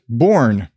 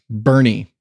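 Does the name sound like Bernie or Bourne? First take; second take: Bourne; Bernie. First: The name is one syllable, like 'Bourne'. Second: The name is two syllables, like 'Bernie'. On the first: The speaker calls it wrong. "I pronounced it Bourne" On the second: The speaker calls it right. "Apparently, it's pronounced Bernie"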